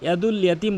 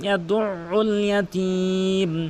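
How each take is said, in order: First: No throat consonant is heard after 'yad'. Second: A doubled throat consonant is pressed after 'yad'. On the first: The speaker calls it wrong. "আইনের উচ্চারণ করে না" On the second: The speaker calls it right. "এভাবে চাপ দিয়ে"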